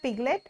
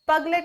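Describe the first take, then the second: First: The first vowel is a short 'i' sound. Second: The first vowel is a short 'uh' sound. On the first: The speaker calls it right. "पहली बात तो ये है पिगलेट" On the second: The speaker calls it wrong. "ये पगलेट नहीं होता"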